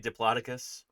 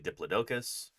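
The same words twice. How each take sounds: First: It is said the common American way. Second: It is said the common British way. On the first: "in the States, typically we say" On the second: "A lot of people in the U K say"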